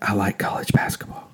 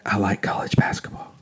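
First: It is spoken in a soft whisper. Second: It is spoken in a soft whisper.

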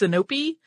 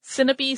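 First: The stress is on the middle syllable. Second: The stress is not on the middle syllable. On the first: "Some put an accent on the middle syllable" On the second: "Sinope sounds more natural to me"

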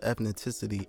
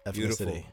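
First: The word has an extra t sound in it. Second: The word has no extra t sound in it. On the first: The speaker calls it wrong. "I said the T" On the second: The speaker calls it right.

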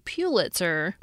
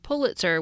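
First: The first syllable has a y-glide, like 'pew'. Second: The first syllable has no y-glide, like 'pull'. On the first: "anglicized to Pulitzer by analogy to other P-U spellings, such as pure" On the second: "the spelling Pulitzer"

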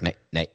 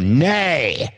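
First: The word is said quickly and timidly. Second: The word is said forcefully with enthusiasm. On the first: The voter is afraid to oppose. "Just very quick" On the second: The voter strongly opposes. "Like if you're really into it, you go"

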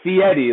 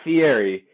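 First: The name sounds like 'fee Eddie'. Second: The name does not sound like 'fee Eddie'. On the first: The speaker calls it right. "He always explains it as it's Fieri. Like, hey, don't forget you have to pay that fee, Eddie" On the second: The speaker calls it wrong. "it's not Fieri"

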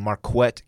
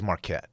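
First: The 'qu' is said with a 'kw' sound. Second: The 'qu' is said with a plain 'k' sound. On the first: The speaker calls it wrong. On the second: The speaker calls it right.

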